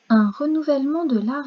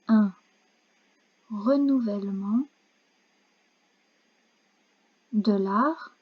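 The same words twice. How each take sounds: First: The phrase is read at normal speed. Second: The phrase is read more slowly. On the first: "je vais vous lire la phrase une première fois" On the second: "je vais relire un peu plus lentement"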